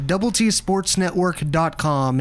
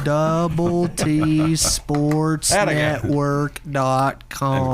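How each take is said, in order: First: It is said fast. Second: It is said slowly.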